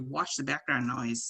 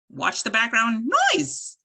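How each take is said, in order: First: The pitch falls at the end. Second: The pitch rises high on the last word. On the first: It is a statement. The speaker calls it right. "If I was stating a sentence" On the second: It sounds like a question. The speaker calls it wrong. "there was a little uptalk in places, ... I'm exaggerating here"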